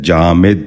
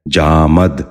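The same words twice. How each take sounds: First: جامد said "jaa-mid", with short i after the m; short i, not a, in the last syllable of جامد; correct pronunciation. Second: جامد said "jaa-mad", with a after the m; short a in the last syllable of جامد; wrong pronunciation. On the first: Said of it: "درست تلفظ ہے". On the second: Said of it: "یہ غلط تلفظ ہے". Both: Shown as a demonstration.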